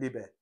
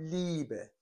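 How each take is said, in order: First: The first vowel is not a long ee. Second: The first vowel is a long ee. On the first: The speaker calls it wrong. "نمیگیم لیبه" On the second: The speaker calls it right. "ای با ا صدای ای کشیده میده"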